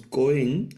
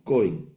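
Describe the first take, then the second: First: Cohen wrongly stressed on its last syllable, rising. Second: Cohen stressed on its first syllable, falling at the end. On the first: Teacher shows students how not to read it, cohen stressed on last syllable. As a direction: put the accent on the end of cohen. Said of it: "no en la última, no leemos". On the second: Teacher corrects the reading for students, cohen stressed on first syllable. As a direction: hit the first syllable of cohen, drop the second. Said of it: "el acento en la primera sílaba". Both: Shown as a demonstration.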